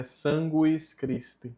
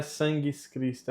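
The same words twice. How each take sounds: First: "sanguis Christi" said SAN-gwees KREES-tee; sounded U. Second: "sanguis Christi" said SAN-ghees KREES-tee; silent U. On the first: Teacher correcting learners, U clearly sounded. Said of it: "E aqui no U". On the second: Teacher showing what to avoid, U left out. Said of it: "Não é". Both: Shown as a demonstration.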